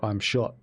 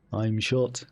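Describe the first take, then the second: First: Said in the usual way. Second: Imitated Liverpudlian accent; Liverpool accent. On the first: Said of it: "But in a more Liverpool". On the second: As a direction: say it as a mock Liverpudlian. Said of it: "Liverpoolian accent".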